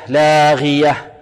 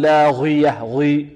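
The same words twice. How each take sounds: First: لاغية with the final ه fully voiced and sung out slowly; clear final ha. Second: لاغية clipped, the final ه dropped; wrong reading. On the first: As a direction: draw out لاغية and let the ه be heard. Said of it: "لا تسمع فيها لاغية". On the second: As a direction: swallow the end of لاغية, no ه. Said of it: "خطأ". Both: Shown as a demonstration.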